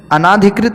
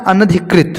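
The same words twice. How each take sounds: First: अनाधिकृत with long "naa"; mispronounced अनाधिकृत. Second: अनधिकृत with short "na"; corrected अनधिकृत. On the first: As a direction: stretch the second syllable of अनाधिकृत. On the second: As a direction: say अनधिकृत as "anadhikrit", all short at the start. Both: Shown as a demonstration. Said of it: "की जगह होता है".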